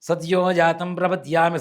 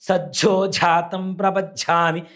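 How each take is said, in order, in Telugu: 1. మొదటి పదం స్పష్టమైన 'dy' శబ్దంతో పలకబడుతుంది. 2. మొదటి పదం 'jj' అనే ద్విత్వ శబ్దంతో పలకబడుతుంది. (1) "ఇదే మంత్రం చెప్తా ఇట్లానే చెప్తా"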